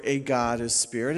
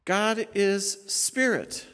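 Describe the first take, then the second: First: "A" said as a full "ay" before God, rising at the end; stress on A. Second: "God is spirit" slow and higher, each word set apart, falling at the end; corrected reading. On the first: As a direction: read the wrong version, sounding out the article "A". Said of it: "It doesn't say in verse twenty-four". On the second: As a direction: give the right version, stretching "God is spirit" word by word. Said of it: "It says, "God". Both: Shown as a demonstration.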